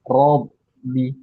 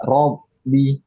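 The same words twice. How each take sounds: Both takes have the same delivery.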